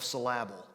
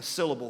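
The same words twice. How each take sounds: First: "syllable" with the stress moved to the second beat, sil-LAB-le; mispronounced syllable. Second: Said in the usual way. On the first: Shown as a demonstration. Preacher showing how misplaced emphasis changes words, "syllable" said suh-LAB-ul. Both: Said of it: "I'm mispronouncing syllable for a reason".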